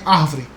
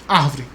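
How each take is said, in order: The two takes are said the same way.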